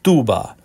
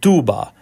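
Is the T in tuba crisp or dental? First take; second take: dental; dental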